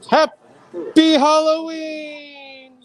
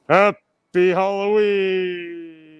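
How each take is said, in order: First: The voice is lighter, with less bass. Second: The voice is deeper, with more bass.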